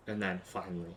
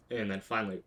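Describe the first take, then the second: No difference in how they are said.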